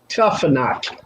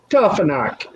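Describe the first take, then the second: First: The middle consonant is an F sound. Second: The middle consonant is an F sound.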